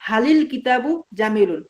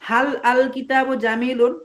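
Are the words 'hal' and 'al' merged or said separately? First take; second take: merged; separate. First: 'Hal' and 'al' merge together into 'halil'. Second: 'Hal' and 'al' are said as separate words. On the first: "আমরা মিলাইয়া বলবো" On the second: "এভাবে বলা বলা উচিত ছিল"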